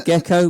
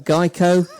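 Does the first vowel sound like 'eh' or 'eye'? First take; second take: eh; eye. First: The first vowel sounds like 'eh'. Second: The first vowel sounds like 'eye'. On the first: "We don't call it a gecko" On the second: "If we were American, ... we call it a Geico"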